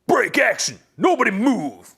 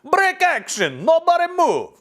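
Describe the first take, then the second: First: It is read in the speaker's ordinary accent. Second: It is read in a put-on Jamaican accent.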